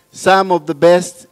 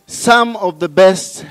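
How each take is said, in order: Both takes have the same delivery.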